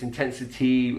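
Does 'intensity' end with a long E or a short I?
long E. The final vowel is a long E. "in lots of accents, it's intensity, it's a long E sound"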